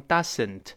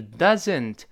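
First: 'doesn't' with a hissed s for the z; wrong S sound. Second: 'doesn't' with a buzzing z in the middle; voiced Z sound. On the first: Teacher showing the error to avoid, 'doesn't' with an s sound. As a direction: say 'doesn't' as 'dussent', voiceless s. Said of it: "不要读成". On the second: Teacher correcting the error, 'doesn't' with a clear z. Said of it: "发z的声音". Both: Shown as a demonstration.

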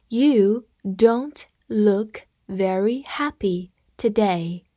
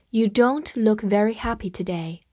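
First: Each word drawn out and separated; slow read-along. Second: Said in the usual way. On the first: Shown as a demonstration. Teacher leading students in reading along, slow read-along. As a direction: model it slowly, word by word. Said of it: "好，跟我慢读一遍".

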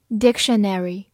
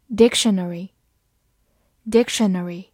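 First: "dictionary" the American way, with a full "-nary" ending; American pronunciation. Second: Said in the usual way. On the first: Shown as a demonstration. Teacher showing learners the US variant, American pronunciation of "dictionary". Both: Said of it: "美式发音".

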